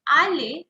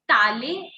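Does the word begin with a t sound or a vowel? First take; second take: vowel; t sound. First: The word begins directly with a vowel sound. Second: The word begins with a linked t sound. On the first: The speaker calls it wrong. "and not ale" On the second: The speaker calls it right. "I'm calling it tale"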